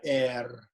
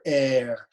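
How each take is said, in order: First: The R is rolled with a trill. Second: The R is light and not rolled. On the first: The speaker calls it wrong. "but not air. Okay, don't roll the R" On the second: The speaker calls it right. "or air"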